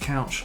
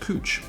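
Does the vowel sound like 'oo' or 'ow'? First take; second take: ow; oo. First: The vowel sounds like 'ow' in cow. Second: The vowel sounds like 'oo' in moon. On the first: The speaker calls it wrong. "would think they should be pronounced couch" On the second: The speaker calls it right. "This is pronounced cooch"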